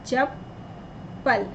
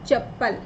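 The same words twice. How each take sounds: First: चप्पल whispered very slowly, syllable by syllable; spelled-out whisper. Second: Said in the usual way. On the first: Shown as a demonstration. (चप्पल को धीरे-धीरे फुसफुसाकर) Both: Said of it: "हमने लिखा यहाँ पर चप्पल".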